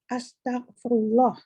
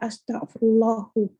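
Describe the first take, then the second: First: The word ends on 'lah' with no vowel. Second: The word ends with an added 'u' vowel. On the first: The speaker calls it right. "Dia kena Astaghfirullah" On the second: The speaker calls it wrong. "Salah kita kalau kita cakap Astaghfirullahu"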